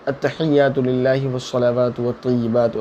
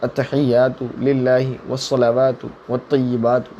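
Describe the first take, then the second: First: It is recited quickly, without pauses. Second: It is recited slowly, with pauses.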